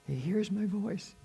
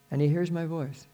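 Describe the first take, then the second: First: Soft, higher, slow repeat; hushed wonder. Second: Said in the usual way. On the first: Real, not acted. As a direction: let it land gently, marvelling.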